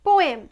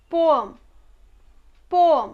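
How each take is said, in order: First: Poem said po-EM, clear e; poem ending in a full "em"; common mispronunciation. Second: Poem said PO-um, weak second vowel; poem with a reduced ending; correct pronunciation. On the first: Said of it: "We generally pronounce". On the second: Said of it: "but it's not poem". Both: Shown as a demonstration.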